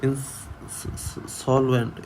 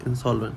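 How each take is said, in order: First: insolvent stretched out very slowly, each syllable clear; slow model pronunciation. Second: Said in the usual way. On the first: Shown as a demonstration. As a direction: drawl out insolvent so students hear every sound. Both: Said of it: "ई की जगह ए बोलते हैं".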